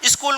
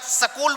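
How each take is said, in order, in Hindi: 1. इसका मानक हिंदी उच्चारण है। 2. इसका पंजाब सीमा वाला क्षेत्रीय उच्चारण है। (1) "स्कूल को" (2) "हमारे राजस्थान में गंगानगर और हनुमानगढ़ की तरफ बोलते हैं"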